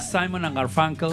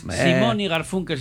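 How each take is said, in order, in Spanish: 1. El nombre se pronuncia con sonidos ingleses. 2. El nombre se pronuncia con sonidos españoles.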